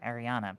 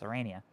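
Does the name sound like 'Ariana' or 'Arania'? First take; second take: Ariana; Arania. First: The name is said with sounds in the order 'Ariana'. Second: The name is said with sounds in the order 'Arania'. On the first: The speaker calls it wrong. "because that's how I pronounced it" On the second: The speaker calls it right. "but it's Arania"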